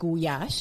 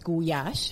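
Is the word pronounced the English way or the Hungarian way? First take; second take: Hungarian; Hungarian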